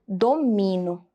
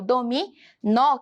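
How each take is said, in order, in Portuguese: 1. A tonicidade não está na última sílaba. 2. A tonicidade está na última sílaba. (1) "como se não tivesse o acento agudo" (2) "a sílaba mais forte seria aquela que está presente o acento"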